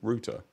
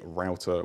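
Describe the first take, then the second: First: The word is said in a British accent. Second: The word is said in an American accent. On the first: "whereas the British English would be" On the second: "The American English would be"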